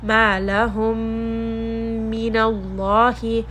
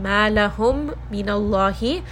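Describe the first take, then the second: First: The two meem sounds merge into one nasal sound. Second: The two meem sounds are said separately. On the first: The speaker calls it right. "Now you hear that I am merging them together" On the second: The speaker calls it wrong. "So instead of saying"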